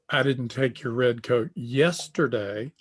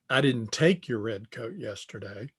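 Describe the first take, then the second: First: The stress falls on the word yesterday. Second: The stress falls on the word take. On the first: It was taken on another day. "I took your red coat, but it was last week" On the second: It was borrowed, not taken. "the inflection on take"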